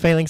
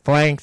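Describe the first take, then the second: First: The word is said with two syllables. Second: The word is said as one syllable. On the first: "instead of Phalanx" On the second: "I always call it flanks"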